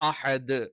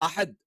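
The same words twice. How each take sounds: First: The final d is released slowly and clearly. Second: The final d is cut off abruptly. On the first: The speaker calls it right. "സാവധാനത്തിൽ ... വ്യക്തമായിട്ട് പറയണം" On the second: The speaker calls it wrong. "പെട്ടെന്ന് അഹദ് എന്ന് സ്റ്റോപ്പ് ചെയ്യാൻ പാടില്ല"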